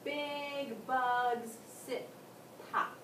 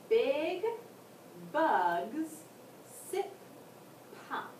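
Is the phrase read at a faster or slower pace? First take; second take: faster; slower. First: The phrase is read at a faster pace. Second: The phrase is read at a slower pace.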